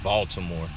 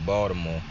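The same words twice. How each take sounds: First: It is said the outsider, non-Baltimore way. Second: It is said the local Baltimore way. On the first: A habit picked up from people elsewhere. The speaker calls it wrong. "when I accidentally say it like that" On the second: The way a native of the city says it. The speaker calls it right. "I always say Baltimore"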